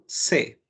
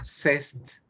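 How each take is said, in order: First: It ends on the vowel with no final consonants. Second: It ends with an audible s and t sound. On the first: The speaker calls it right. "la terminación st no suena" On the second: The speaker calls it wrong. "Jamás ha sido cest y jamás será cest"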